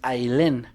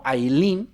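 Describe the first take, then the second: First: The last vowel sounds like 'eh'. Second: The last vowel sounds like 'ee'. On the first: The name is written with a single E. The speaker calls it right. "me parece que es Ailén" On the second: The name is written with a double E. The speaker calls it wrong. "no Ailín, porque Ailín creo que es con doble E"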